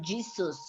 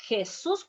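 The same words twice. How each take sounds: First: "Jesus" said GEE-zus, with English J; English pronunciation. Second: "Jesus" said heh-SOOS, J as H; Spanish pronunciation. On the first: Teacher shows the name the patient dislikes, English J pronunciation. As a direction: start "Jesus" with the J of jeep. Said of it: "doesn't like to be called Jesus". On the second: Teacher says the name the patient prefers, Spanish pronunciation. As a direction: open "Jesus" with a Spanish H, stress the end. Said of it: "He prefers to be called Jesus". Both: Shown as a demonstration.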